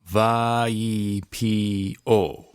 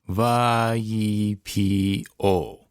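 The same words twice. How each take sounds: No difference in how they are said.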